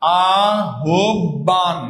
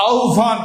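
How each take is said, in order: First: আহ্বান very slowly as "a-hob-ban"; drawn-out syllables with a doubled b; common pronunciation. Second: আহ্বান said as "au-bhan"; correct pronunciation. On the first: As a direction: spell out a-hob-ban by ear. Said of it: "এই যে আহ্বান যে লিখলাম". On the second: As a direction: glide au straight into bhan. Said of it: "উচ্চারণ কি হয়ে গেল". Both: Shown as a demonstration.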